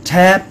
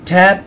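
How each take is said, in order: Both takes have the same delivery.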